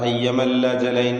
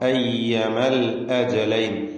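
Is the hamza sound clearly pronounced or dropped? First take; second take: dropped; clear. First: The glottal stop is dropped and words run together. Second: The glottal stop is clearly pronounced. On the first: The speaker calls it wrong. "അവിടെ അയ്യമൽ അജലൈൻ എന്ന് പറയരുത്, അങ്ങനെ പലർക്കും തെറ്റ് പറ്റാറുണ്ട്" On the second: The speaker calls it right. "ഹംസകൾ ക്ലിയർ ആക്കണം"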